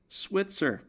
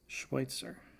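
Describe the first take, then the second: First: The word begins with an s sound. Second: The word begins with a sh sound. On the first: The speaker calls it right. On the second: The speaker calls it wrong.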